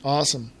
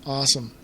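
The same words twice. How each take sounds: The two takes are said the same way.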